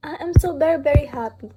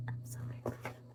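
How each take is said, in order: First: Said in the usual way. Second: Whisper. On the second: Real, not acted. Repeats happy line under breath.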